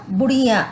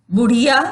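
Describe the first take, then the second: First: "बुढ़िया" with the final आ nasalised, falling; nasalised plural ending. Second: Said in the usual way. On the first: Shown as a demonstration. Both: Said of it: "नाक से जो उच्चारण हो".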